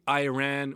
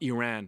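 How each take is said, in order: First: The first vowel sounds like 'eye'. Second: The first vowel sounds like 'ee'. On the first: The speaker calls it right. "We say Iran" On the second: The speaker calls it wrong. "it's not Iran"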